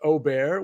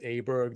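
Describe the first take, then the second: First: The surname is said closer to its native form. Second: The surname is said the common anglicized way. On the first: The speaker calls it right. "I guess it's like Aubert" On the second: The speaker calls it wrong. "it's not properly said as Aberg"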